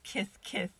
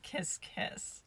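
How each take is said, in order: First: The words end in a lisped th sound. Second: The words end in a clear s sound. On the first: This imitates how someone else says it. "why she does kith kith" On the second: This is the usual way to say it. "instead of kiss kiss"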